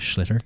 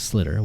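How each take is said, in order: First: The word begins with an sh sound. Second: The word begins with a plain s sound.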